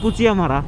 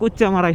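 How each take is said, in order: First: The middle is said as 'chiya', three syllables. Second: The middle is said as a doubled 'chcha'. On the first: This is the polite, standard way of saying it. "অনেকে বলে কুচিয়ামারা" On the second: This is the local, original way of saying it. "Local অ্যাকসেন্টে বা original accent বলতে গেলে এটা কুচ্চামারাই হবে"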